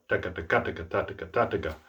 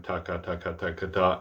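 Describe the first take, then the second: First: Quick "taka" run with a beat on every third syllable; double-tongue "taka" stressed as triplets; accented triplets. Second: Quick, even "taka" in pairs; unaccented rattle of "taka" syllables; double tongue pattern. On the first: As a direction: regroup "taka" into threes by accent. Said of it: "accent the triplet". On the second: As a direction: run "taka" evenly, ending on "ta". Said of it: "take a double tongue pattern". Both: Shown as a demonstration.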